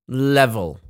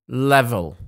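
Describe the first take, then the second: Both takes have the same delivery.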